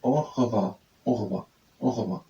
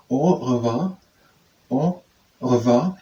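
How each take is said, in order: First: "au revoir" read as English, falling at the end; English pronunciation. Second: "au revoir" drawn out, rising at the end; French phrase. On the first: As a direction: say "au revoir" the English-guide way, closing downward. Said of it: "how I would pronounce it in English". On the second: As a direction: try "au revoir" as French, long first vowel, questioning lift. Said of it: "Let's try the French phrase". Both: Shown as a demonstration.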